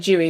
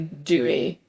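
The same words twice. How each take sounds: First: It is said with a British pronunciation. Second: It is said with an American pronunciation. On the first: "We'd say dewy" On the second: "The Americans would say dewy"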